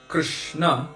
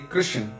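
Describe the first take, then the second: First: The word ends with a full final vowel. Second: The word ends on a consonant, vowel dropped. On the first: This is the Sanskrit form. "they don't say Krishna" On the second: This is the Hindi form. "they're used to cutting all of the vowels off the end"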